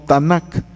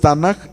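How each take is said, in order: First: The word ends in a hard K sound. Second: The word ends in a soft, breathy J sound. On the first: The speaker calls it wrong. "no como K" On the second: The speaker calls it right. "se pronuncia suave como J"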